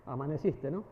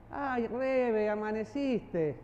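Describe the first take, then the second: First: Lower, soft amaneciste with a laugh. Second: Slow, drawn-out teasing amaneciste; sarcastic tone. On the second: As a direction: stretch amaneciste slowly, mocking. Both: Shown as a demonstration. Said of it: "¿Cómo cambia?".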